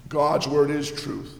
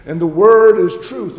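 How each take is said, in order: First: "word" stressed gently, quieter; soft restatement. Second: "word" ringing out much louder; loud proclamation. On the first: Luther softly repeating the truth to his listeners. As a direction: say "God's word is truth" quietly, leaning lightly on "word". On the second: Luther proclaiming scripture to the congregation, loud. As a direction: proclaim "And the word is truth" loudly, punching "word". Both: Acted.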